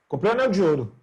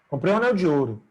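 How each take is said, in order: Both takes have the same delivery.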